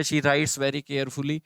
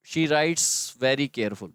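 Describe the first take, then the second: First: The corrected sentence read slowly, "carefully" said in full; slow corrected take. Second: The wrong sentence read slowly, "careful" said plainly; slow wrong take. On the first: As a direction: read the fix out slowly for students. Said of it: "verb के बाद adverb". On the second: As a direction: read the error out slowly for students. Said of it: "error है". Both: Shown as a demonstration.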